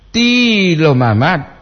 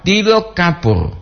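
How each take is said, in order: First: Tilo with the I held long and high. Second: Tilo with a quick, short first I. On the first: Host contrasting tilo mama with its lookalike, long vowel. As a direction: stretch the first vowel of tilo slowly. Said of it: "perbandingan Leo". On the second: Host contrasting tilo kapur with its lookalike, short vowel. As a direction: keep the I of tilo brief and raised. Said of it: "itu perbandingan dia". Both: Shown as a demonstration.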